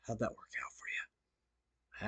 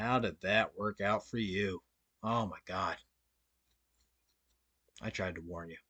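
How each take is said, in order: First: Breathy taunting whisper, slow; mocking whisper. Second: Quiet mock pity. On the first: Streamer taunts a rival in a slow mocking whisper. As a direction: hiss the gloat slowly, almost no voice. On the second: Streamer fakes pity for a rival, low and soft. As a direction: sigh it out as if you saw it coming. Mocking a rival after his failure.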